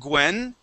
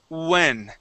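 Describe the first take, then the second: First: The word begins with a hard G sound. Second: The word begins with a rounded oo sound. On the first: The speaker calls it wrong. "instead of saying Gwen" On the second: The speaker calls it right. "focus on an oo sound"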